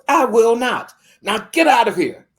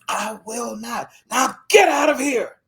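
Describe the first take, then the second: First: Loud high furious dismissal; angry refusal. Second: Building to a shout. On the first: Landowner refusing the little girl, loud and furious. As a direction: throw her out with your voice. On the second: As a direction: start cold, then explode. Landowner refusing again, building. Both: Retold or imitated.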